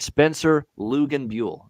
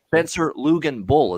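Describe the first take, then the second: First: The surname ends with a two-part 'bew-ell' sound. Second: The surname ends with a short 'bull' sound. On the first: The speaker calls it right. "There we go" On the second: The speaker calls it wrong. "is that correct?"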